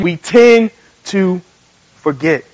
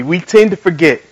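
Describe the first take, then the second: First: "tend", "to", "forget" spaced out with pauses; slow repeat. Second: Said in the usual way. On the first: Shown as a demonstration. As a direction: lead the crowd slowly, pausing before "forget". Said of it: "Say it again". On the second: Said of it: "Say this with me".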